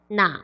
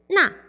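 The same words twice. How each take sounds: First: The syllable is said with a low dipping tone. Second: The syllable is said with a sharp falling tone. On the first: It asks which or which one. "삼성을 말을 하게 되면은" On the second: It means that or that one, far from the speaker. "사성으로 말을 하는데"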